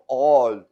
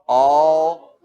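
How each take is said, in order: First: The vowel is a rounder, Germanic 'o' sound. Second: The vowel is the usual English 'aw' sound.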